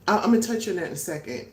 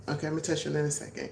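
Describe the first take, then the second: First: Said in the usual way. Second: Fast, softer throwaway repeat; rushed aside. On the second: Shown as a demonstration. Vlogger to viewers: quick, softer muttered aside. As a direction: rattle it off quietly to yourself.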